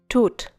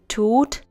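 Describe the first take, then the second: First: The vowel is cut short. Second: The vowel is held long. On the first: The speaker calls it wrong. "and not tut" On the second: The speaker calls it right. "has to be long"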